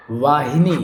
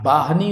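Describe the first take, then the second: First: वाहिनी as "vaa-hi-nee"; v and middle i. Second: बाहनी as "baah-ni"; b, no middle i. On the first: Teacher correcting the word, वाहिनी as "vaahini". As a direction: say वाहिनी with "v" and three syllables. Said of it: "वाहिनी शुद्ध होगा". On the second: Teacher showing the mistake, बाहनी as "baahni". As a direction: say बाहनी with "b" and two syllables. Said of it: "बाहनी और नहीं होगा". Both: Shown as a demonstration.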